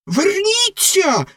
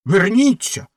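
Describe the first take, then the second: First: Very high, slow stretched-out shriek; the rocket's second, far higher call after the duck; shrill shriek. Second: Sharp high call back; first cry of a shriek, not yet at the top. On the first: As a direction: screech it desperately as she leaves. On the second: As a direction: shout after the swimming duck. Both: A narrator's reading. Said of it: "заверещала Ракета".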